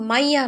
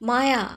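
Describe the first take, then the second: First: The name is said with an extra 'i' sound, Maiya. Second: The name is said plainly with two syllables, Maya. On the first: The speaker calls it wrong. "মাইয়া নয়" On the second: The speaker calls it right.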